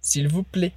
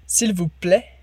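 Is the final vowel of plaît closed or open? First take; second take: closed; open. First: The final vowel is closed, like an E. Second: The final vowel is open. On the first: "Ou o final com som de E" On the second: "a primeira mais aberta"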